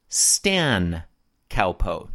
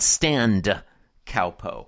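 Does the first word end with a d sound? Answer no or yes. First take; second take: no; yes. First: The first word ends without a d sound. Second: The first word ends with a d sound. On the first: The speaker calls it right. "the short form of standard countertop position is Stan Cowpo" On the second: The speaker calls it wrong. "not Stand Cowpo"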